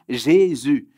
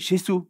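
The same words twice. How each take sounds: First: The word has a standard French pronunciation. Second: The word has a Spanish-style pronunciation. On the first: The speaker calls it right. "c'est très compliqué pour un hispanique parce que c'est Jésus" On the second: The speaker calls it wrong. "Mais moi, je disais Jésus"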